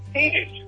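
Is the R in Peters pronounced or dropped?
dropped. The R sounds are dropped, Boston style.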